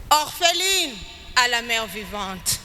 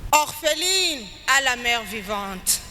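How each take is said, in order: Both takes have the same delivery.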